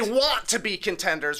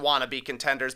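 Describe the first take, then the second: First: The words 'want to' are said in full. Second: The words 'want to' are reduced to 'wanna'. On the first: They are aspiring to become real contenders. "I say that differently than wanna-be contenders" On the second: They are pretenders who are not real contenders. "rather than wanna-be contenders"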